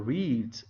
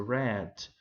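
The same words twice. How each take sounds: First: "read" said like reed, long ee vowel; present-tense read. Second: "read" said like red, short e vowel; past-tense read. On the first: Teacher contrasting verb forms, "read" said as reed. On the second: Teacher contrasting verb forms, "read" said as red. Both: Shown as a demonstration. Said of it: "eu só mudo a pronúncia".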